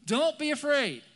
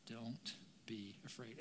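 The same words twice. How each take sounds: First: High, loud "don't be afraid"; loud command. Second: Very soft, slow, low "don't be afraid"; gentle reassurance. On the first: Jesus calls to frightened disciples on the water, loud command. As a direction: call it out forcefully over the storm. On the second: Jesus still reassures the listeners, softly and slowly. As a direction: let each word settle quietly. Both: Acted.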